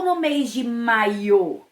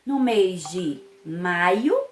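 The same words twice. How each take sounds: First: "maio" said as maiô, stressed on a closed final "ô"; stress on last syllable. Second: "maio" slowly, stressed on "mai"; stress on first syllable. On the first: Teacher offers pupils second option, stress on last syllable. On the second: Teacher offers pupils first option, stress on first syllable. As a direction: lean on the first syllable of "maio", weak ending. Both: Shown as a demonstration. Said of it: "observando aí o acento".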